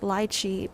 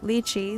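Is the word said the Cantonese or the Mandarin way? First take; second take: Cantonese; Mandarin. First: It is said with a Cantonese pronunciation. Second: It is said with a Mandarin pronunciation. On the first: "lychee in Cantonese is like" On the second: "lychee in Mandarin is like"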